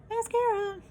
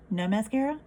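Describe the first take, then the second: First: "Mascara." pitched much higher, bright reveal. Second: Said in the usual way. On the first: Shown as a demonstration. Showing viewers the lashes after mascara, pitched high. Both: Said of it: "so y'all can see the difference".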